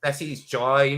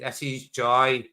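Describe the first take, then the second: First: Said in the usual way. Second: Slow, drawn-out "This is joy"; slowed, savoring. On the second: Shown as a demonstration. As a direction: stretch each word of "This is joy".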